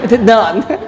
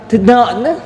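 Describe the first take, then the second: First: The second word begins with an n sound. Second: The same.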